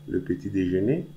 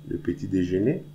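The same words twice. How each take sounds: No difference in how they are said.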